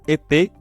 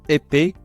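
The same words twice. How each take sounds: No difference in how they are said.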